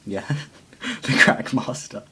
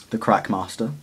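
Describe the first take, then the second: First: The Crack Master said through a chuckle; laughing at the nickname. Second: Said in the usual way. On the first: Shown as a demonstration. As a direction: giggle as you repeat the Crack Master. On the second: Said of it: "We're going to call him".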